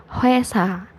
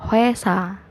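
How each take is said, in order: The two takes are said the same way.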